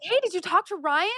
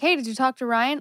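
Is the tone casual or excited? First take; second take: excited; casual. First: It is said in an excited, eager tone. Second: It is said in a casual, offhand tone.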